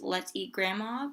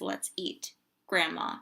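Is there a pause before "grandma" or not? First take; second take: no pause; pause. First: It is said with no pause before grandma. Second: There is a pause before grandma.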